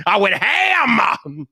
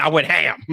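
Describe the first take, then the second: First: "ham" stretched very long on a raised pitch; drawn-out HAM. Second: Said in the usual way. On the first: Real, not acted. Creator boasting about the real Viper video, HAM drawn out. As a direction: draw "ham" way out, high then falling. Repeats phrase with drawn-out emphasis.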